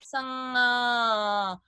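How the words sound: The voice resonates further back in the throat. "if it falls back"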